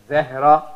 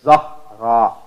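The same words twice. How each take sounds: First: Zahra with an eh sound; wrong pronunciation. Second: Louder Zahra with an open ah; right pronunciation. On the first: Teacher showing the wrong vowel, eh. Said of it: "Instead of saying it". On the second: Teacher correcting Zehra to Zahra, open ah. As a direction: say Zahra with ah, firmly. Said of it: "you would say it". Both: Shown as a demonstration.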